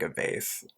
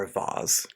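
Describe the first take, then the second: First: "vase" rhyming with "face"; everyday pronunciation. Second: "vase" said as "vahz"; pretentious pronunciation. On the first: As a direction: say "vase" with a long A, as in "base". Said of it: "I say vase". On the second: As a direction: say "vase" with an open AH and a Z ending. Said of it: "depending on how you pronounce it". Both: Shown as a demonstration.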